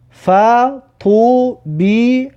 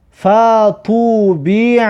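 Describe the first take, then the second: First: Slow, pausing after each syllable; syllable-by-syllable reading. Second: Slow, joined syllables with long vowels; drawn-out model reading. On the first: Teacher has learners look at each letter, slowly splitting the word. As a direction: break "فطوبیع" into separate held syllables. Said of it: "هر حرف را نگاه کنید". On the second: Teacher models a word for learners, slow and drawn out. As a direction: stretch "فطوبیع" in one slow run. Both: Shown as a demonstration.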